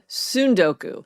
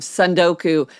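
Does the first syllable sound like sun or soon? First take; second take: soon; sun. First: The first syllable rhymes with soon. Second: The first syllable rhymes with sun. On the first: The speaker calls it right. "I should have said Sundoku" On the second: The speaker calls it wrong. "my mispronunciation"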